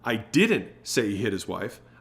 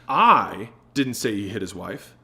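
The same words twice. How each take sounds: First: The word "didn't" is stressed. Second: The word "I" is stressed.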